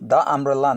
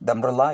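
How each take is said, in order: First: 'The' and 'umbrella' are said as separate words. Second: 'The' and 'umbrella' run together into one word. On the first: "ద అంబ్రెల్లా అన్నాం అనుకోండి" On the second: "ఫాస్ట్గా దంబ్రెల్లా అవుతుంది"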